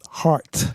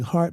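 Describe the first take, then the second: First: The final t is a sharp, abrupt stop. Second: The final t is soft and barely heard. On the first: "with a sharp percussive stop" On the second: "instead of saying heart"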